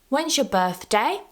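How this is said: The voice rises at the end. The speaker was told before but has forgotten. "I use a rising intonation at the end"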